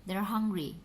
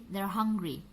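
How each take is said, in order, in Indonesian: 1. Kata are tereduksi dan disambungkan ke kata sebelumnya. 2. Kata are tereduksi dan disambungkan ke kata sebelumnya.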